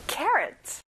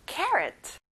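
Both takes have the same delivery.

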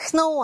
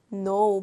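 First: Know said as "k-no", K audible; K sounded out. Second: Know said just like "no"; silent K. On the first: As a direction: pronounce the silent K in know. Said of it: "know 아니에요". (know의 K를 소리 내어 "크노") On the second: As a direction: leave the K in know unsounded. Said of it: "발음은 no입니다". (K는 묵음, "노"로 발음) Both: Shown as a demonstration.

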